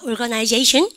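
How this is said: The middle vowel is a full 'eye' sound. "영국 애들은 요거를 I를 I 발음 다 살리는 거 좋아하거든"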